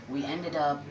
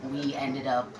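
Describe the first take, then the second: No difference in how they are said.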